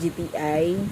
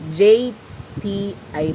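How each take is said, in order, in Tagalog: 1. Ang unang letra ay nagsisimula sa matigas na G na tunog. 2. Ang unang letra ay nagsisimula sa tunog na J. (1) "pag Bisaya kasi medyo ang J naging akuan ba, naging gahi na hinuon" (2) "J as in joy kasi yun"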